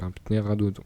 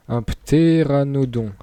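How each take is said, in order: First: "pnéradodon", with n slipped in after the p and d for n; struggling mispronunciation. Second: "ptéranodon" said slowly and loudly, pt then é-ra-no-don; careful correct pronunciation. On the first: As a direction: stumble through it as "pnéradodon". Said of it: "je galère à le dire". (« pnéradodon » écorché, le n mal placé) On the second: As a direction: land "ptéranodon" syllable by syllable, higher and louder. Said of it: "j'ai réussi à le dire". (« ptéranodon » articulé lentement et fort, pté-ra-no-don) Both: Real, not acted.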